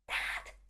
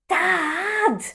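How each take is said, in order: First: It is a very quiet whisper. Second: It is a somewhat louder whisper.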